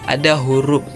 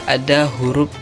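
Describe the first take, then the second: Both takes have the same delivery.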